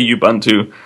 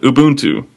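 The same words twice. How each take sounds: First: The name is read out as it is spelled. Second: The name is said the native way. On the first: The speaker calls it wrong. "I say it phonetically. I say it how Google Translate pronounces it" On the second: The speaker calls it right. "I know how to pronounce it"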